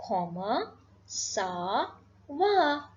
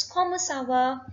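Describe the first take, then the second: First: "Comment ça va" very slow, each word separate; drawn out "Comment ... ça ... va" with pauses; word-by-word demonstration. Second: Said in the usual way. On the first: Shown as a demonstration. Teacher introducing the informal French greeting, word-by-word demonstration. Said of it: "we will say". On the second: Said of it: "I repeat".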